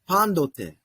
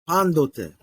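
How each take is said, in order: First: The consonant after the n is a D sound. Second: The consonant after the n is a D sound.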